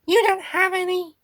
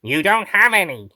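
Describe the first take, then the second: First: Very high little creature voice; Meep character voice. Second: Out of character, in a natural register; wrong character voice. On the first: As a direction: squeak it in a Meep voice with an odd accent. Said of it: "I am beat the meep". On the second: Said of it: "That's the wrong voice". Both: Acted.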